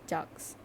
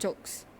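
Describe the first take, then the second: First: The vowel is a short 'ah' sound. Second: The vowel is a long 'oh' sound. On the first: The speaker calls it right. "let me correct my pronunciation" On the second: The speaker calls it wrong. "it's not jokes"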